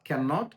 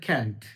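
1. এটা দুটো আলাদা শব্দ হিসেবে বলা হয়। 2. এটা একটি কন্ট্রাকশন করা শব্দ হিসেবে বলা হয়। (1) "ক্যান নটটাকে আলাদা করে এভাবে বলতে পারো" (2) "তুমি এটাকে কন্ট্রাকশন করে দিলে"

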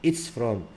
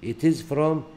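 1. الفعل يُختصر ويلتصق بالضمير. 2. الفعل يُنطق كلمة كاملة مستقلة.

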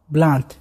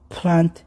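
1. الصوت الأول بدون نفخة هواء. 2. الصوت الأول فيه نفخة هواء قوية. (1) "ما تحركت الورقة" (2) "كأنك تنفخ"

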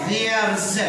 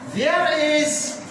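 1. تندمج الكلمتان في مقطع واحد مختصر. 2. تُنطق الكلمتان منفصلتين وكاملتين.

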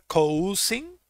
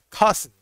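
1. La primera vocal suena como 'oo'. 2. La primera vocal suena como 'ah'. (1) "no vamos a pronunciar cousin" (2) "Vamos a hacer de cuenta que la O y la U suenan como una A"

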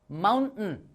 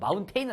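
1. 마지막 음절은 약하게 줄어든 'tun' 소리예요. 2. 마지막 음절은 완전한 'tain' 모음이에요. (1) "원어민 발음" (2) "마운테인은 아닙니다"

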